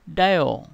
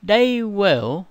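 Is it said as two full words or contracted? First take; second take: contracted; full. First: It is said as one contracted syllable. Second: It is said as two full words.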